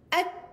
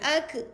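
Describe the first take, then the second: First: The final k is released with only breath. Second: The final k bounces into a short e vowel. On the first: The speaker calls it right. "Ha, gitu" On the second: The speaker calls it wrong. "itu ada lantunan. Ada E kan"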